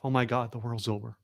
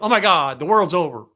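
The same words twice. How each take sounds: First: It is mumbled quietly, as if to oneself. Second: It is said louder, as if for others. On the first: The person is talking only to themselves. "You start mumbling to yourself" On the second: The person wants others to hear. "So you get louder going"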